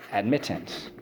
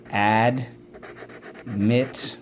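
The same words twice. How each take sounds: First: Said in the usual way. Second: "Admittance" very slow, in AD, MIT, TANCE; long pauses between the syllables of "Admittance". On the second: Shown as a demonstration. Teacher leading class through the word, syllable by syllable. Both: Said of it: "Let's go".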